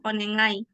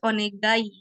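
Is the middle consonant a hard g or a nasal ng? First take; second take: nasal ng; hard g. First: The middle consonant is a nasal ng sound. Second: The middle consonant is a hard g sound. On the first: This is how the word is actually read. "tapi cara bacanya itu onengai" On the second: This is how the word is written. "kalau ditulis onegai ya"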